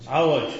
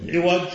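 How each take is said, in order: First: عوج said 'awaj, a after ع; fatha on ع. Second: عوج said 'iwaj, i after ع; kasra on ع. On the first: Teacher rejects this form for opinions, 'awaj for عوج. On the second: Teacher models the word for a flawed opinion, 'iwaj for عوج. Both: Shown as a demonstration. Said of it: "ولا تقول".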